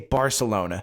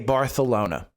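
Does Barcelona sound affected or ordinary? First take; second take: ordinary; affected. First: It is said in a plain, ordinary way. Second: It is said in an affected, showy way. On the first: The speaker is an ordinary person. The speaker calls it right. "normal people, it's they say Barcelona" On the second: The speaker is showing off. The speaker calls it wrong. "you don't say Barcelona"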